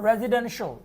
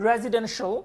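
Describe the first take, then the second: The two takes are said the same way.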